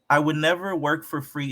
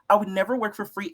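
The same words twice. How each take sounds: First: It is read in the speaker's ordinary voice. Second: It is read in an imitated woman's voice. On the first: The speaker calls it wrong. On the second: The speaker calls it right. "I got to read it in my Natalie voice"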